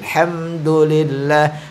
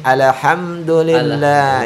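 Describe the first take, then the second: First: The l sound is held without any bounce. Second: The l sound bounces with an echoing release. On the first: The speaker calls it right. "beda dengan" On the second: The speaker calls it wrong. "sehingga bunyinya seperti alhamdulillah"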